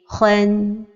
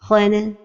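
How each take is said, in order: First: The final n ends cleanly without extra vowel. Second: The final n bounces into an extra vowel. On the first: The speaker calls it right. "Donc la prononciation correcte est" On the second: The speaker calls it wrong. "Une autre erreur est de donner al-qalqala comme ceci"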